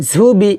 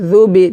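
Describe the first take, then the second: First: "ঝুবি" com chiado grosso e aspirado no ঝ; Z pesado, errado. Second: "জুবি" com a ponta da língua nos dentes de cima; dh fino. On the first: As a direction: diga "ঝুবি" carregando a consoante inicial. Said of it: "এটা হবে না". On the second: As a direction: afine o জ de "জুবি", leve e interdental. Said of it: "পাতলা করে জাল পেশ জু উচ্চারণ". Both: Shown as a demonstration.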